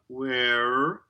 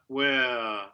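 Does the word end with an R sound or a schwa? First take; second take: R sound; schwa. First: The word ends with a rhotic R sound. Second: The word ends with a schwa, no R. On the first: The speaker calls it wrong. "We don't have the rhotic schwa there, no R, so not where" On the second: The speaker calls it right. "but where. Right, so that R reduces to schwa and creates a diphthong"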